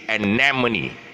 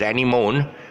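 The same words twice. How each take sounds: First: It does not sound like 'Annie' plus 'moan'. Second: It sounds like 'Annie' followed by 'moan'. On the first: The speaker calls it right. "the real pronunciation is anemone" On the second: The speaker calls it wrong. "it's always pronounced as anemone"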